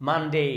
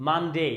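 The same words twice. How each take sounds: No difference in how they are said.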